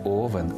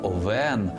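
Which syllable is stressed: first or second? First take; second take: first; second. First: The stress is on the first syllable. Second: The stress is on the second syllable. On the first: The speaker calls it wrong. "не Овен" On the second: The speaker calls it right. "Наголос падає на другий склад"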